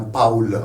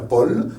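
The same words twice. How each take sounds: First: "Paul" as POWL, A gliding into OU; German pronunciation. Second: "Paul" with a single O vowel, POL; French pronunciation. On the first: Teacher contrasting German with French, AU diphthong. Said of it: "En allemand, c'est un Paul". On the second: Teacher contrasting French with German, French O. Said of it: "En français, c'est un Paul". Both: Shown as a demonstration.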